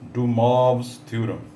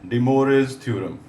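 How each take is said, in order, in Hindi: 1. इस नाम का उच्चारण फ़्रेंच तरीके से होता है। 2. इस नाम का उच्चारण अंग्रेज़ी तरीके से होता है। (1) "correct pronunciation in French" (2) "For convenience, dear students, uh, we say"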